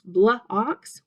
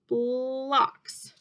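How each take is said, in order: First: The word is broken into two separate parts. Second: The word is blended smoothly into one syllable. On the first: The speaker calls it wrong. "Now don't say blah ox, blah ox. We don't talk like that" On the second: The speaker calls it right. "So we have to say bull, blocks"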